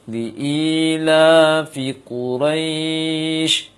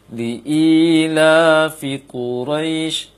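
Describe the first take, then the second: First: The long vowel is held for four counts. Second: The long vowel is held for two counts. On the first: "Dan boleh baca empat sebagai contoh" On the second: "Kita perhatikan dua rakaat"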